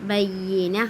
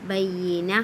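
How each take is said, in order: The two takes are said the same way.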